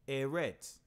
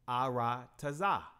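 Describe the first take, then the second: First: The word is said short, like Eretz. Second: The word is said long, like Aratazah. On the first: This follows the modern vowel markings. "based upon those markings there, that Nakud system, this word will pr- be pronounced Eretz" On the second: This follows the ancient paleo letters. "But in the paleo, it's Aratazah"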